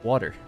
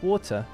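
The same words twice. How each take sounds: First: It is said in an Irish accent. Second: It is said in a well-spoken British accent. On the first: "in Ireland it's water" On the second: "A well-spoken British accent is going to be like water"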